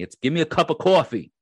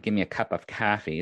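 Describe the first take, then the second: First: Long Island accent, coffee as cawfee, higher and louder; proud Long Island accent on coffee, stretched aw. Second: The not-Long-Island coffee, flat a in kaffee. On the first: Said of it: "I am from Long Island". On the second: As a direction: give me a cup of coffee with coffee as kaffee, flat a vowel. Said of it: "I will say coffee, not coffee". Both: Shown as a demonstration.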